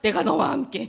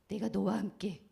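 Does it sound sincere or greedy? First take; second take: greedy; sincere. First: It sounds greedy and scheming. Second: It sounds warm and sincere.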